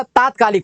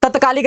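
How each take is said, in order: First: तात्कालिक opened as taat; long first vowel. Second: तत्कालिक opened as tat; short first vowel. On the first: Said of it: "होता है". (तात्कालिक, लंबा ता) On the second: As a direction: keep तत्कालिक short at the start. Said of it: "नहीं होता". (तत्कालिक, छोटा त) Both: Shown as a demonstration.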